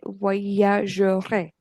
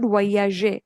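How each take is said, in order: First: The middle R sound is clearly pronounced. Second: The middle R sound is left out. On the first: The speaker calls it right. "very important to pronounce it correctly" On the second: The speaker calls it wrong. "Many students skip that R. It's not"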